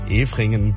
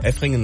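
First: The first vowel is long. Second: The first vowel is short. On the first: The speaker calls it right. "Efringen mit H sollte man sich denken" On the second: The speaker calls it wrong. "Also Efringen hatte ich gesagt"

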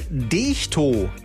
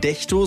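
First: The E is a long vowel. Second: The E is a very short vowel. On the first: The speaker calls it right. "sondern Dechto" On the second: The speaker calls it wrong. "Also ob das ein ganz kurzes E ist. Also nicht Dechto"

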